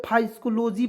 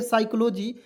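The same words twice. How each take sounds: First: फाइस्कोलॉजी starting with an F sound; common mispronunciation. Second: साइकोलॉजी starting on a plain S; silent P. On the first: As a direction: misread it as फाइस्कोलॉजी, "fai-sko-lo-ji". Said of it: "बहुत लोग इसे फाइस्कोलॉजी पढ़ लेते हैं". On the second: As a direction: say साइकोलॉजी as "sai-ko-lo-ji". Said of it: "पी जो है इसको silent करते हैं". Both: Shown as a demonstration.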